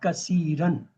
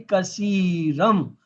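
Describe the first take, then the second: First: The word ends with an n sound. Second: The word ends with an m sound. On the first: The speaker calls it wrong. "It's not kasiran" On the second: The speaker calls it right. "when you join, then you will say kasiram"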